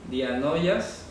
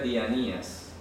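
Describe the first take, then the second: First: The middle has an 'o' sound: di-a-no-i-as. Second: The middle has no 'o' sound: di-a-ni-as. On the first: This is how it is spelled. "Se escribe dianoias" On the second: This is how it is actually pronounced. "pero se pronuncia dianías"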